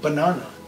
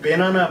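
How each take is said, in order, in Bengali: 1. প্রথম স্বরধ্বনিটি প্রায় উচ্চারিতই হয় না। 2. প্রথম স্বরধ্বনিটি e-এর মতো শোনায়। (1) "অ্যাজ ইফ এই এটা ওখানে নেই" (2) "আমি এটাকে বেনানা বলছি না"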